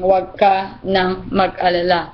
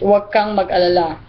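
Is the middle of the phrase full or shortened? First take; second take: full; shortened. First: The middle is said in full, 'ka nang'. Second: The middle is shortened to one syllable, 'kang'. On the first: "instead of saying" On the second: "we just shorten it with"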